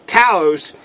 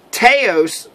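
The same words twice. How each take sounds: First: Taos said as TOW-ohs, first vowel like cow; corrected Taos. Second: Taos said as TAY-ohs, first vowel like say; the slip TAY-ohs for Taos; first try at Taos. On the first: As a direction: fix Taos to rhyme with house. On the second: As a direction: Taos with an ay sound, before the correction. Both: Shown as a demonstration.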